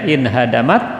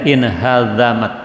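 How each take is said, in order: First: The middle consonant is a plain d sound. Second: The middle consonant is a soft dh sound. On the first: It means became destroyed. "dibaca dengan bidalil muhmalah, dal yang tidak bertitik" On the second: It means became cut off. "dibaca dengan zal al-mu'jamah yang bertitik"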